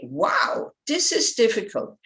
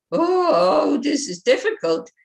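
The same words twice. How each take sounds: First: Upbeat wow, eager to take it on; enthusiastic. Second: Higher, louder, crying whine on oh; whiny discouraged. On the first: Teacher to students, showing the encouraging way: upbeat. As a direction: say it like a challenge you welcome. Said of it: "it gives you the enthusiasm to continue". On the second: Teacher to students, showing the defeated way: whiny crying moan. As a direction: moan it like you're giving up. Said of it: "it kind of blocks you". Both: Shown as a demonstration.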